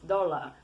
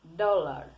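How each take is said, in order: The two takes are said the same way.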